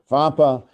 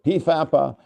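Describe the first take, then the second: First: It starts straight with an F sound. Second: A P sound comes before the F. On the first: "some people pronounce it FAPA" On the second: "other people pronounce it P FAPA"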